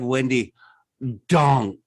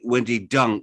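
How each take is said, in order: First: The surname does not sound like 'dung'. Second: The surname sounds like the word 'dung'. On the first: This is how the name is commonly said. "we have Wendy Dong" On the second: This is how the name is actually said. "which is actually Wendy Dung"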